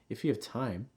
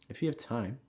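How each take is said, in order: First: The pitch rises at the end. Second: The same.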